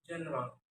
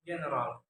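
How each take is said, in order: First: Said in the usual way. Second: "general" with a hard g; learner's mispronunciation. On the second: Shown as a demonstration. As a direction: say "general" as "gheneral". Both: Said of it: "is pronounced".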